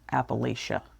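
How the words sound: It is pronounced the way Northerners say it. This is how outsiders from the North say it. "Northerners say Appalachia"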